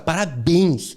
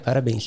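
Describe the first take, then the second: First: It is said intensely, with lots of energy. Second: It is said flatly, with little energy. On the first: The speaker is proud and excited about it. The speaker calls it right. "tu botou intenção na emoção" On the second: The achievement is treated as ordinary. The speaker calls it wrong. "Peraí, isso exige intensidade nessa emoção"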